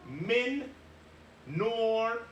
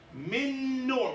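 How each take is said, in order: First: The two n sounds are said separately, unmerged. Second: The n sounds merge into one held, doubled n. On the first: The speaker calls it wrong. "We don't say min nor" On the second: The speaker calls it right. "We act as if there's a shadda on the noon"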